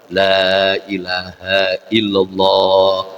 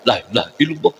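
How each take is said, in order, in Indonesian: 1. Vokal pertama dibaca panjang. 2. Vokal pertama dibaca pendek. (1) "madnya jaga" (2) "lamnya itu dalam ibtidah itu"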